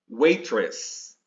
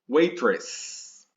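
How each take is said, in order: The two takes are said the same way.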